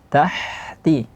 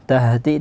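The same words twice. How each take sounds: First: The h is a breathy, airy sound. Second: The h is made deep in the throat. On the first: The speaker calls it right. "tapi tahti seperti rahma" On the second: The speaker calls it wrong. "tidak seperti uh, ha yang di pangkal tenggorokan"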